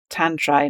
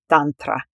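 First: It is said with an English pronunciation. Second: It is said with a phonetic Finnish pronunciation. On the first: "I often pronounce, by the way, tantra in an English way" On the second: "I might pronounce it in a Finnish way, phonetically"

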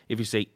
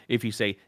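Both takes have the same delivery.

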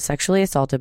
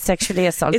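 First: It is said in the speaker's ordinary accent. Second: It is said in an imitated German accent. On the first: "I'm a bit disappointed you didn't do that in a German accent" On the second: "do you want me to do it again?"

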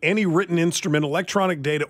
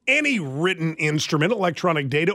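First: It is read in a plain, casual voice. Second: It is read in a formal, official-sounding voice.

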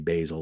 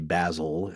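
First: It is said the American way, like the herb. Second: It is said the British way.

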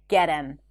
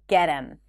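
The two takes are said the same way.

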